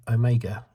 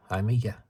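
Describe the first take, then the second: First: Said in the usual way. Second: Mock New Zealand "Omega", like "eye-MEE-ga"; New Zealand accent. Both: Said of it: "New Zealand accent".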